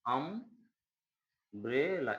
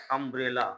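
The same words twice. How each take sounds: First: अम्ब्रेला stretched very slowly, broken into syllables; teacher slowly splitting अम्ब्रेला to show its first sound. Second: Said in the usual way. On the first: Shown as a demonstration. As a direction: sound out अम्ब्रेला slowly, drawing out the opening vowel. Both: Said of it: "इसका उच्चारण आप करेंगे".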